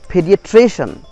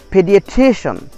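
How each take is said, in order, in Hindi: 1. तनाव '-cian' से पहले वाले अक्षर पर पड़ता है। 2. तनाव '-cian' से पहले वाले अक्षर पर पड़ता है।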